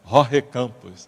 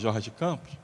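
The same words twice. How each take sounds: First: The name is said with a Spanish accent. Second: The name is said with a Portuguese accent. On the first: The speaker sounds fluent. The speaker calls it right. "é o sotaque ... virou fluente" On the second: The speaker does not sound fluent. The speaker calls it wrong. "o cara não é fluente"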